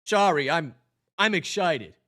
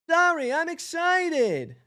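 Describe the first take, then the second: First: Said in the usual way. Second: Much higher, slow excited squeak; high, slow, squeaky excited bee; Barry repeat, high. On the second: Acted. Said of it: "repeat in higher voice".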